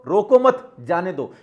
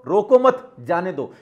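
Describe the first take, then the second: First: There is a pause after 'mat'. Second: The same.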